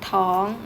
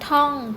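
First: The syllable has a high tone. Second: The syllable has a falling tone. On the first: "รูปโทแต่อยู่ที่เสียงตรี" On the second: "รูปเอกแต่อยู่ที่เสียงโท"

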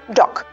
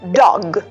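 First: The final consonant is voiceless, like k. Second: The final consonant is voiced, like g. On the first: The speaker calls it wrong. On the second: The speaker calls it right.

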